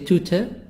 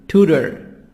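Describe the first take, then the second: First: It is said with a British accent. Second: It is said with an American accent.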